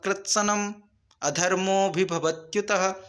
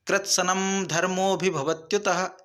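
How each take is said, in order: First: The words are split apart into separate units. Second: The words are run together through the sandhi. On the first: "अलग भी कर दें तो और अच्छे से पढ़ने में आ जाएगा" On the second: "ये जुड़ा हुआ है तो इसको हम ऐसे भी पढ़ सकते हैं"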